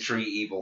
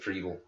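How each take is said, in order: First: The name is said as two separate words. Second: The name is said as one blended word. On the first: The speaker calls it wrong. "they keep mispronouncing it" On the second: The speaker calls it right. "Instead of Treevil"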